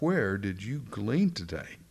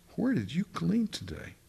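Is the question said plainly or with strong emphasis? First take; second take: plainly; strong emphasis. First: It is read plainly without special emphasis. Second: It is said with strong, excited emphasis.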